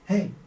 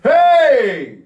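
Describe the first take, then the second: First: It is said quietly, with little energy. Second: It is said loudly, with strong energy. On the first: It would not get a friend's attention. The speaker calls it wrong. "you're not going to be like, hey, with that volume" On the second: It demands a friend's attention. The speaker calls it right. "You need to demand that attention"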